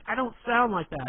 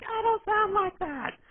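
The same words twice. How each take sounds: First: Put-on higher, louder protest as the girlfriend. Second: Squeaky, drawn-out mimicry, extremely high; mocking girlfriend impression. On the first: Girlfriend objecting to the impression, raised protesting voice. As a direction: object indignantly, pitched up. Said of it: "and she'll be like". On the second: Boyfriend mimicking her protest back, exaggerated high-pitched girly voice. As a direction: parrot it back in a loud falsetto. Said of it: "And you're like".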